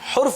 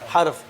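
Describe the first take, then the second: First: The first vowel is a 'u' sound. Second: The first vowel is an 'a' sound. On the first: The speaker calls it wrong. "हुर्फ गलत है" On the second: The speaker calls it right. "जब एक हो तो फिर हर्फ होगा"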